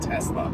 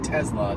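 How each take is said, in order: First: The middle consonant sounds like an s. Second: The middle consonant sounds like a z. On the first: The speaker calls it wrong. "not Tesla" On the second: The speaker calls it right. "we should probably all be saying Tesla"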